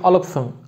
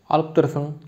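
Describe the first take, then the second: First: The syllable 'dır' is left out. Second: The syllable 'dır' is fully pronounced.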